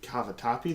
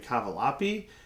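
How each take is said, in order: First: The middle consonant is a 't' sound. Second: The middle consonant is an 'l' sound. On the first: The speaker calls it right. "people don't know how to say cavatappi" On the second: The speaker calls it wrong. "They say cavalapi"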